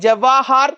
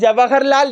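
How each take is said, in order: First: The vowel after 'Jaw' is long. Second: The vowel after 'Jaw' is short. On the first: The speaker calls it right. "ഉച്ചരിക്കേണ്ടത് ഇങ്ങനെയാണ്" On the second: The speaker calls it wrong. "നമ്മൾ പല പലപ്പോഴും പറയുന്നത് ആ തെറ്റിച്ചിട്ടാണ്"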